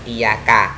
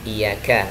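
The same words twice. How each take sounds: First: "iyaka" with a hard k, no air released; wrong kaf. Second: "iyyaka" with a breathy release on the k; aspirated kaf. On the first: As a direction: cut the breath on the k of "iyaka". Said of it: "bukan iyaka". ("iyaka" dengan kaf tanpa embusan udara) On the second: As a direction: let air out on the k of "iyyaka". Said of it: "kalau kita melafalkan lafal iyyaka". ("iyyaka" dengan kaf berembus udara) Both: Shown as a demonstration.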